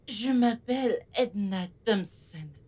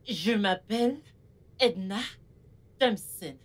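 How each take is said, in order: First: It is said in a soft voice. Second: It is said in her ordinary voice.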